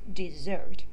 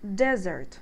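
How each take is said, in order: First: The stress is on the second syllable. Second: The stress is on the first syllable. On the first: It is the verb. "Please keep in mind it's a verb" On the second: It is the noun. "Desert as a noun, we're supposed to say desert"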